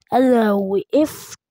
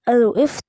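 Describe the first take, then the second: First: Slow. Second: Said in the usual way. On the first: Shown as a demonstration. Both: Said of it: "تاني بقى".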